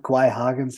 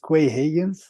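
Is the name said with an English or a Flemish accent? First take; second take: Flemish; English. First: The name is said with Flemish pronunciation. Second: The name is said with English pronunciation. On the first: "in het uh, Vlaams" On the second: "in English"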